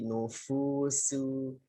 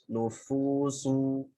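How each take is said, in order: First: The s sound is light and plain. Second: The s sound is heavy and emphatic. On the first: The speaker calls it right. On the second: The speaker calls it wrong. "jangan sampai berubah jadi shad dhammah. Jangan uh, kayak tadi"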